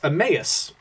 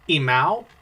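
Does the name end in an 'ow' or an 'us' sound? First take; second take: us; ow. First: The name ends in an 'us' sound. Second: The name ends in an 'ow' sound. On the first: The speaker calls it right. "it's Emmaus" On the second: The speaker calls it wrong. "I've always thought it was um"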